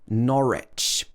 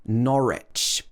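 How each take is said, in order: First: The middle W sound is silent. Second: The same.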